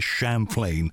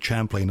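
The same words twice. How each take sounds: First: The first part sounds like 'Champagne'. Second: The first part does not sound like 'Champagne'. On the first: The speaker calls it right. "of course it is Champlain, as in Champagne" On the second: The speaker calls it wrong. "I've tended to say Champlain"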